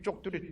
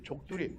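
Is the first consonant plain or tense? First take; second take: tense; plain. First: The word starts with a tense consonant. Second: The word starts with a plain consonant. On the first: The speaker calls it right. "이렇게 발음을 해야 되는데" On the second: The speaker calls it wrong. "말맛이 안 나잖아요"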